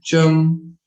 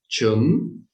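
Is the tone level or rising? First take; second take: level; rising. First: The pitch stays level through the word. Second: The pitch rises through the word. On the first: "the flat no tone" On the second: "with the rising tone"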